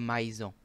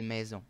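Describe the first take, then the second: First: The first vowel glides like a-i. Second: The first vowel is a plain e sound. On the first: The speaker calls it wrong. "on dit pas maison" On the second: The speaker calls it right. "on dit maison"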